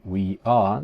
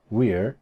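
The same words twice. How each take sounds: First: "we are" as two full words; uncontracted "we are"; full form. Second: "we're" as one syllable; single-word "we're"; contracted form. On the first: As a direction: keep "we" and "are" distinct. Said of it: "En vez de decir". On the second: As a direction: run it together into "we're". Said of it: "decían". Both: Shown as a demonstration.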